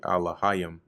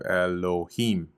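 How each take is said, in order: First: The word begins with an 'ah' sound. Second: The word begins with an 'eh' sound. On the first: The speaker calls it right. "which is really Alahayim" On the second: The speaker calls it wrong. "even though they have the pronunciation off"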